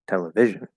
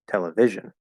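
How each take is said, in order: First: The strongest stress is on the third syllable. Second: The same.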